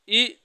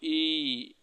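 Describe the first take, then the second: First: The vowel is held only briefly. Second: The vowel is held about twice as long. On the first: "छोटी ई बोलते हैं" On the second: "बड़ी ई में ज्यादा रुकते हैं"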